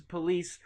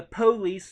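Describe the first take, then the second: First: Said in the usual way. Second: "police" as PO-lees, stress first; urban pronunciation. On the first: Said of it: "it's police is". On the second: Shown as a demonstration. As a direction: hit a long PO at the start of "police". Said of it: "more of an urban pronunciation".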